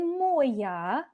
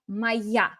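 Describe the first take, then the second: First: The stress falls on the first syllable. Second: The stress falls on the second syllable. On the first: The speaker calls it wrong. "don't say moya" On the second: The speaker calls it right. "where the word stress should be"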